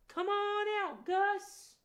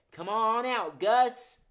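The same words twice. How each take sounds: First: High, sweet coaxing call; sweet high call to a shy puppet. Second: 1 calling out. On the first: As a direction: coax him out sweetly, way up high. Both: Shown as a demonstration. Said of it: "Let's call him out in a sweet voice".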